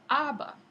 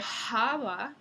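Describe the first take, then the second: First: The word begins directly with the vowel. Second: The word begins with an audible breathy h. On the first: This is the modern pronunciation. "se dice aba en el castellano moderno" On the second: This is the older medieval pronunciation. "en lugar de java"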